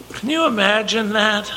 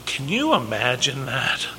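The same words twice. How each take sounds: First: Wondering, hushed. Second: Quiet, hushed. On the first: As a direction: let the question hang in awe. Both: Real, not acted. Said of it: "repeats question".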